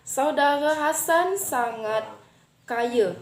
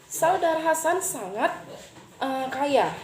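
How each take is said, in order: First: The r is blurred and final a sounds like e. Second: It is said in standard Indonesian pronunciation.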